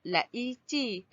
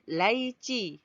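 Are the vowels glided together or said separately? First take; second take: separate; glided. First: The two vowels are split into separate syllables. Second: The two vowels glide together in one syllable. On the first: The speaker calls it wrong. "tak ada kan orang sebut laici" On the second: The speaker calls it right. "kita pun sebut laici. Terus dia bunyikan uh, vokal tersebut"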